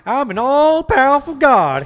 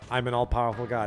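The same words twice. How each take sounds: First: It is said in a put-on character voice. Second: It is said in the speaker's normal voice.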